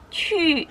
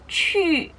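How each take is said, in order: Both takes have the same delivery.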